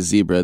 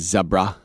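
First: The first syllable has a long 'ee' vowel. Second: The first syllable has a short 'e' vowel. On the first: This is the pronunciation the British do not use. "they don't say zebra" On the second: This is the pronunciation the British use. "they say zebra, like Deborah"

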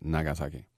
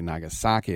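First: All syllables carry even stress. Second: One syllable carries strong stress. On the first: The speaker calls it right. "there's no accents or emphasis" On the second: The speaker calls it wrong. "you don't say"

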